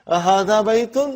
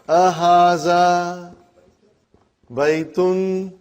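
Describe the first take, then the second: First: It is said with a questioning tone. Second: It is said with a flat statement tone.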